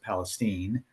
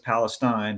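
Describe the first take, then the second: First: The name is said the local Texas way. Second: The name is said the common, usual way. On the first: "in Texas they pronounce it Palestine" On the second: "I know it says Palestine"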